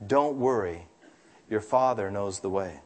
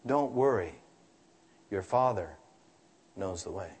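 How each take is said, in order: First: Gentle mother. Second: Softer, fading reassurance that trails almost to nothing; remembered mother's voice, dying away softly; soft echo of mother. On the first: A narrator's reading. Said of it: "And Mother said gently". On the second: Retold or imitated. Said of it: "the echo of my mother's voice".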